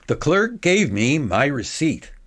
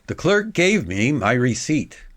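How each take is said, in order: No difference in how they are said.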